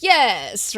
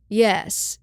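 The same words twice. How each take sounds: First: Louder, drawn-out mock-eager yes; more enthusiastic. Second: Said in the usual way. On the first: Voice actor obeys the director's note, more enthusiastic. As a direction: imitate an actor adding enthusiasm. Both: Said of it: "say it with a little more enthusiasm".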